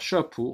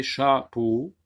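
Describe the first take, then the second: First: Said in the usual way. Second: "chapeau" drawn out in two separate syllables. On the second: Shown as a demonstration. Teacher showing pupils the vowels, "chapeau" said syllable by syllable. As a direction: break "chapeau" slowly into cha and peau. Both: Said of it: "regardez, chapeau".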